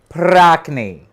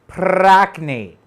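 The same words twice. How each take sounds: Both takes have the same delivery.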